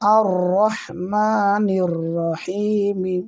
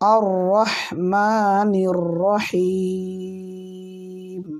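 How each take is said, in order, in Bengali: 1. শেষ শব্দটি ছোট 'ই' স্বরে শেষ হয়। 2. শেষ শব্দটি 'ম' দিয়ে শেষ হয়, আর তার আগে একটু টানা স্বর থাকে। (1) "মিম জেরে মি" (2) "এক জের হরকতে ওয়াকফ, সাকিন করিয়া পড়িতে হয়।"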